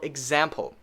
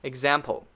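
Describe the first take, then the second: Both takes have the same delivery.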